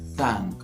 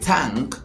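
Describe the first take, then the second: First: The word begins with a soft th sound. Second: The word begins with a hard t sound. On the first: The speaker calls it right. "but we go thank" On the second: The speaker calls it wrong. "We don't say tank sounding t"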